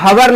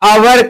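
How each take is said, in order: First: The word begins with an h sound. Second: The word begins with a vowel sound. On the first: The speaker calls it wrong. "इसको हवर नहीं कहते हैं" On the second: The speaker calls it right. "अवर कहते हैं"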